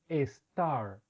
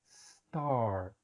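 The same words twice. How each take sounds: First: An extra e vowel comes before the s. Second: The word starts directly with the s sound. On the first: The speaker calls it wrong. "les colocamos una E. Entonces decimos star" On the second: The speaker calls it right. "solo es el sonido de la S"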